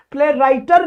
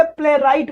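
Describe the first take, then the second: First: प्लेराइटर with an extra -er syllable on the end; wrong word ending. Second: प्लेराइट ending crisply on the t, no -er; correct word ending. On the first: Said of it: "प्लेराइटर नहीं बोलेंगे". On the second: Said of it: "प्लेराइट बोलेंगे". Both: Shown as a demonstration.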